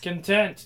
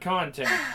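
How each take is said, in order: First: The stress is on the second syllable. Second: The stress is on the first syllable. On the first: It means a feeling of satisfaction. The speaker calls it right. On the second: It means the material something contains. The speaker calls it wrong. "not content"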